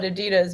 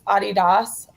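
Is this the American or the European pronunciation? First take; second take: American; European. First: It is said the usual American way. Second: It is said the European way. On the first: "we call it Adidas" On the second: "in Europe, like the pro- the actual pronunciation"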